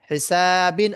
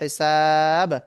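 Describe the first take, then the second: First: The word ends with an extra vowel and n. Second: The word ends on a bare consonant. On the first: The word is read without stopping. "আছে" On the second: The reader stops on this word. "থামতে গেলে হবে"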